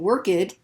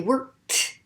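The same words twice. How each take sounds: First: The ending is a voiced D sound. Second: The ending is a voiceless T sound. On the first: The speaker calls it wrong. "instead of saying worked" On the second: The speaker calls it right. "we're going to keep the voiceless sound"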